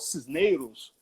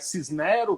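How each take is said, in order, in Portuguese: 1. A vogal do meio é um ditongo deslizante. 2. A vogal do meio é um E aberto.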